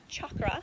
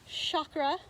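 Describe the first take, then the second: First: The first sound matches the start of 'chocolate'. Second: The first sound differs from the start of 'chocolate'. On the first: This is the original Sanskrit form. "the Sanskrit pronunciation is chakra, like chocolate" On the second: This is the commonly heard form. "we hear the word chakra a lot more commonly"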